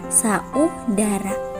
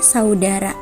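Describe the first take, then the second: First: The a and u are split into two syllables. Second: The a and u glide together as one sound. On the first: The speaker calls it wrong. "bukan saudara" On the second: The speaker calls it right. "dibaca saudara"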